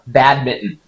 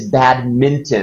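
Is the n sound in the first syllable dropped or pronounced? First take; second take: dropped; pronounced. First: The n sound in the first syllable is dropped. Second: The n sound in the first syllable is pronounced. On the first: The speaker calls it wrong. "you can probably get by in the States just saying badminton" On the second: The speaker calls it right. "But it's badminton. It's one of those English words that has those N's"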